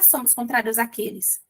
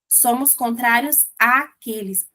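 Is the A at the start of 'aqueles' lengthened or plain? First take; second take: plain; lengthened. First: The first A of 'aqueles' is short and plain. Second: The first A of 'aqueles' is drawn out and marked. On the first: The speaker calls it wrong. "Esse não é" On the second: The speaker calls it right. "você fala o A com uma entonação diferente"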